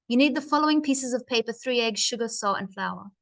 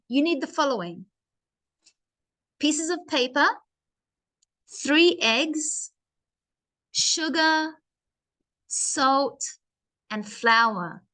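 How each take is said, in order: First: The list is run together without pauses. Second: Each list item is separated by a pause.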